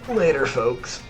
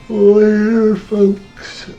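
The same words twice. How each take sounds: First: It is said in a clear, normal voice. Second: It is said through a yawn.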